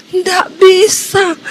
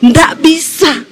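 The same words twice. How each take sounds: First: Slow, choked words forced out; as if barely able to breathe; a dying man straining to answer; strained struggling refusal. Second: Said in the usual way. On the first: Retold or imitated. Choking husband cannot say Jesus.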